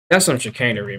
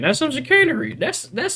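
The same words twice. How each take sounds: First: Said in the usual way. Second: High squeaky take on "chicanery"; mock squeaky. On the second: Real, not acted. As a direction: squeak out "That's some chicanery" in a silly voice. Repeats the phrase mockingly.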